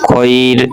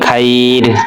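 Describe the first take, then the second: First: The vowel after kh is a rounded 'oh'. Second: The vowel after kh is an open 'ah'. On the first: The speaker calls it right. "খ জবর খই পড়তে হবে" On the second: The speaker calls it wrong. "খাইর বলা যাবে না, অনেকে আমরা পড়ি"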